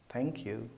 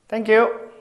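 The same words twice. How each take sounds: First: Much softer, lower, falling "Thank you"; a subdued, dutiful thank you; quiet thank you. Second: Louder, higher, cheerful "Thank you"; delighted thank you for a gift; bright thank you. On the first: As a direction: mumble the thanks flatly. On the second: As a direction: beam out your thanks. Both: Shown as a demonstration. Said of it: "there's a different emotion behind it".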